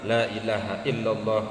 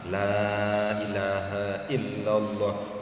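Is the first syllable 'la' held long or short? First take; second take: short; long. First: The first 'la' is cut short. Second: The first 'la' is drawn out long. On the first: The speaker calls it wrong. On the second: The speaker calls it right. "Harus minimal dua setengah alif atau lima harkat"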